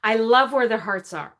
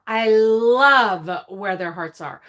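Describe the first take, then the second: First: Said in the usual way. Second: "love" drawn out long and leaned on; slow down and stretch the word "love"; stress on love. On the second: Real, not acted.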